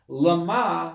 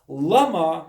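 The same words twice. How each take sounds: First: The stress is on the second syllable. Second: The stress is on the first syllable. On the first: It asks for the purpose or goal. "Just put the emphasis on the second syllable, meaning for what purpose" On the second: It asks for the reason or cause. "Lama means why"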